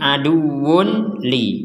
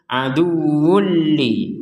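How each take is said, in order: First: The n sound is pronounced clearly before the l. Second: The n sound merges fully into the following l. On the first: The speaker calls it wrong. "Kalau dibaca jelas akan menjadi" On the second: The speaker calls it right. "Kita masukkan tanwin ini kepada huruf lam"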